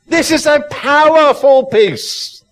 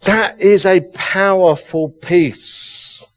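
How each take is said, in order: First: Powerful peace proclaimed. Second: Slow, calm, settled restating of "powerful peace"; slow solemn. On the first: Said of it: "I'm getting so excited". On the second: Quiet restatement after long pause. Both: Real, not acted.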